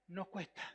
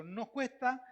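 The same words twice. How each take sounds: First: "nos cuesta" repeated softer and lower; soft echo. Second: Said in the usual way. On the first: Real, not acted. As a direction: let "nos cuesta" fall away quietly. Repeated for emphasis. ("nos cuesta" repetido más suave y grave)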